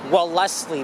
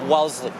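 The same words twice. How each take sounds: First: Every letter of the word is sounded out. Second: Part of the word is left silent. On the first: The speaker calls it wrong. "with the spelling, or if you look at the street sign, you may think it as" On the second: The speaker calls it right. "but nope, it is Wellesley. Part of it is silent"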